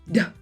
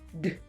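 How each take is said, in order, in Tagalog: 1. Sinusundan ng patinig na a ang katinig. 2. Binibigkas ang katinig nang mag-isa, walang patinig. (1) "Hindi da" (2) "Kailangan d"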